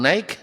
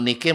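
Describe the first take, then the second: First: The first vowel sounds like 'eye', English style. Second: The first vowel sounds like 'ee', Indonesian style. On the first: The product is expensive and foreign. "kalau sudah naik made in Amerika" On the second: The product is cheap and local. "Kalau dibaca Nike masih orang Indonesia"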